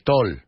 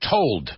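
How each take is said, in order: First: The final d sound is dropped. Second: The final d sound is clearly said. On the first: The speaker calls it wrong. "another pronunciation problem, is people say" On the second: The speaker calls it right. "We got to finish our words, too"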